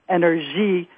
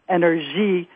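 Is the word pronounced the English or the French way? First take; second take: French; French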